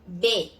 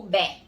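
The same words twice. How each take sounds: First: "B" said bê, closed E, cut before any R; closed-vowel "B" with no R; syllable without R. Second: "bé" with open E and no R; open vowel. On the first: Teacher showing it minus R, closed vowel. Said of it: "seria só". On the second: Teacher offering the alternative, open vowel. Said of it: "ou bé". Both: Shown as a demonstration.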